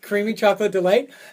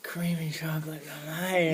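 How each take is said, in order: First: It is said at normal speed. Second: It is said slowly and softly.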